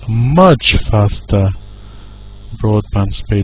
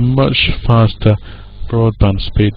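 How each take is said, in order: First: The word much carries strong stress. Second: The word much is said lightly, without stress. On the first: "if we want to stress this, we might stress it" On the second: "it's kind of looks like a function word to me"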